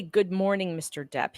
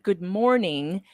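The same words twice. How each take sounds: First: Said in the usual way. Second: Slow quote. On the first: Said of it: "He, he didn't say". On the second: Retold or imitated. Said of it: "He said".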